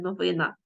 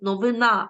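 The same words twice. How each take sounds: First: The stress is on the middle syllable. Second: The stress is on the last syllable. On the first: The speaker calls it wrong. "а не" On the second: The speaker calls it right. "чи ще якесь"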